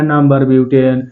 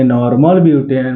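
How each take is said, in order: First: नंबर butane read out as the wrong way, number butane. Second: नॉर्मल butane with a clear stressed नॉर्मल; correct reading. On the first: Teacher showing students the misreading to avoid, plain wrong version. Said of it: "ऐसे नहीं पढ़ना है". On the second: Teacher giving students the right reading, stressing नॉर्मल. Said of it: "बोलेंगे नॉर्मल butane". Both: Shown as a demonstration.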